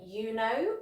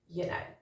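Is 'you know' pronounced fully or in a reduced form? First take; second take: fully; reduced. First: Both words are pronounced fully and separately. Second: The words are reduced and run together. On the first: The speaker calls it wrong. "we don't actually say" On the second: The speaker calls it right. "we tend to say"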